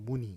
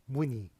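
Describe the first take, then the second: First: The n sound is a plain alveolar n. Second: The n sound is palatalized, like ny. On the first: "문의 이런 식으로 좀 약간 이상하게 발음해요" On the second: "문의로 우리가 발음하지 않고"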